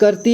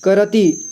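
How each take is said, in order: First: The r is a half sound without vowel. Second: The r is followed by a full vowel. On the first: "र को थोड़ा सा ऐसा बोल रहे हैं कि आधा र बोल रहे हैं" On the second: "अगर आप अच्छे से कहते हैं, बोलते हैं, उच्चारण करते हैं"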